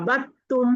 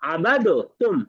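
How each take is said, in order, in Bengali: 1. d ধ্বনিটি দ্বিত্ব t ধ্বনির সাথে মিশে যায়। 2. d ধ্বনিটি t-এর আগে আলাদাভাবে উচ্চারিত হয়। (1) "আমরা পড়বো আবাত্তুম" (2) "এই আবাদ উচ্চারণ হবে না"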